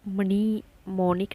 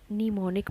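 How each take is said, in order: First: The word starts with a sounded m. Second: The word starts with an n sound. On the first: The speaker calls it wrong. "मनी मोनिक नहीं बोला" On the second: The speaker calls it right. "निमोनिक बोला हमने"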